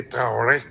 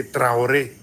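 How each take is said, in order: First: Traoré with the re sound blurred; outsider's pronunciation. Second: Traoré with a clear rolled re sound; Traoré as locals in Burkina Faso say it; local Burkinabe pronunciation. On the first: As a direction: say Traoré like a foreigner, r barely there. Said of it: "the difference in accents". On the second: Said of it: "You hear that re sound". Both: Shown as a demonstration.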